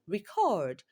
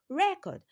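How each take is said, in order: First: The stress is on the second syllable. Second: The stress is on the first syllable. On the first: "Record has its stress on the second syllable" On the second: "record has its stress on the first syllable"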